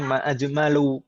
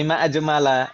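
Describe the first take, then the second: First: The word ends with an 'u' vowel. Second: The word ends with an 'a' vowel. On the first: It asks what is most beautiful. The speaker calls it wrong. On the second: It exclaims how beautiful something is. The speaker calls it right.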